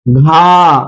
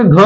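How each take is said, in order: First: घा held out long; full long sound. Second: घ kept brief; short half sound. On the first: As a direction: draw out the vowel of घा. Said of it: "पूरी होनी चाहिए". (घा की लंबी, पूरी ध्वनि) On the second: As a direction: clip the vowel of घ. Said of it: "कम होनी चाहिए". (घ की छोटी ध्वनि) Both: Shown as a demonstration.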